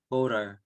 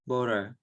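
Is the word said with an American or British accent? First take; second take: American; American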